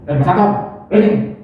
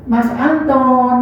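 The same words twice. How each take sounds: First: Offhand call. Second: Slow, loving "Mas Anton", drawn out gently; tender name call. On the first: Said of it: "Masa pacar mau ngono?". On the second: To a sweetheart, a slow loving call of "Mas Anton". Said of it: "kan seneng". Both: Shown as a demonstration.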